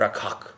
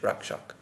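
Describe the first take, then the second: First: The k is followed by an h sound. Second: The k is followed by an sh sound. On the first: This is the Bengali way of saying it. "in Bengali ... after a K ... then it becomes an H" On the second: This is the traditional Sanskrit pronunciation. "in Sanskrit, the proper pronunciation, or the traditional pronunciation, would be Rakshak"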